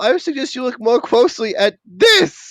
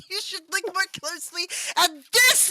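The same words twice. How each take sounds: First: Grave hint of the old headmaster; Dumbledore voice. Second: Mock grave wizard line; lightly voiced old wizard; imitating Dumbledore. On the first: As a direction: suggestive wizard line. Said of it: "pictured Dumbledore going". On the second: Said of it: "I just pictured Dumbledore going".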